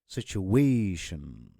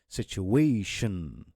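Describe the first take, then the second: The two takes are said the same way.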